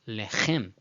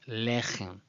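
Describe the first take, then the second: First: The stress is on the last syllable. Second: The stress is on the first syllable. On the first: The speaker calls it wrong. "It's not lechem, ... with the stress at the end" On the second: The speaker calls it right. "Rather, it's lechem. ... the stress in the first syllable is the preferable, correct one"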